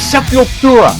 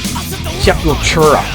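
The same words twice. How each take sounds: First: The consonant before 'ura' sounds like plain 't'. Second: The consonant before 'ura' sounds like 'ch'. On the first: The speaker calls it right. "There's no ch in Sepultura. It's Sepultura" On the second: The speaker calls it wrong. "So many people call them Sepultura. There's no ch"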